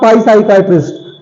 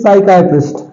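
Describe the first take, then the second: First: The initial P sound is pronounced. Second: The initial P sound is silent. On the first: The speaker calls it wrong. "This is not pi psychiatrist" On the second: The speaker calls it right. "This is psychiatrist. Here P is also silent"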